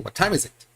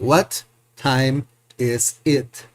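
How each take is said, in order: First: The words run together like one word. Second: Each word is said separately, one by one. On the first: The speaker calls it right. "Like one single word, like one single sound" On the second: The speaker calls it wrong. "We don't say"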